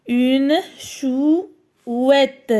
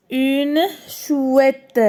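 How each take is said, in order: First: "chouette" drawn out in two parts, chou, ette; syllable split. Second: Said in the usual way. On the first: Shown as a demonstration. Teacher counts syllables for pupils, "chouette" split slowly in two. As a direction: break "chouette" after "chou" with a pause. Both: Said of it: "Deux syllabes".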